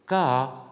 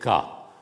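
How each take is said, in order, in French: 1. Le mot est prononcé sur un ton modulé. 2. Le mot est prononcé sur un ton bas. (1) "un ton modulé" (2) "avec un ton grave"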